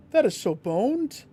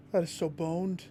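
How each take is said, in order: First: Higher and louder, the word that hit hard; frustrated cry at the game; exasperated outburst. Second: Said in the usual way. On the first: Real, not acted. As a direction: wail it out in disbelief. Loud repeat of the same words.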